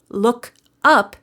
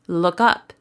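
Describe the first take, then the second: First: Word-by-word "look ... up"; unlinked words. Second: "look up" run together as one word; joined-up "look-up", no gap; linked words. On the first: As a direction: LOOK and UP said apart with a pause between. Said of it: "This type of linking". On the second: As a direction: slide the K of "look" straight into "up". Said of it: "becomes look up". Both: Shown as a demonstration.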